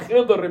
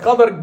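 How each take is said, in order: First: The vowel after the first consonant is 'i'. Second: The vowel after the first consonant is 'a'. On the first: The speaker calls it wrong. "It's not Khidr, my brother" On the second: The speaker calls it right. "His name is Al-Khadr"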